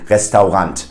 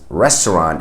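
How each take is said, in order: First: It is pronounced fully the German way. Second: It is pronounced the English way. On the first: "pronounce it in a German way" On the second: "which we would pronounce as restaurant in English"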